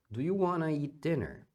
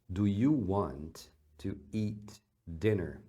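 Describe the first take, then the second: First: Want and to blend into a single 'wanna'. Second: Want and to are said as two full words.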